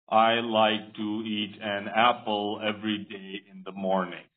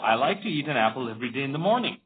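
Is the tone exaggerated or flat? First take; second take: flat; exaggerated. First: The sentence is said flatly, like reading aloud. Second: The sentence is said with exaggerated emotion. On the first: "don't read it like this. ... this is not cool" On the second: "now this is too much emotions as well"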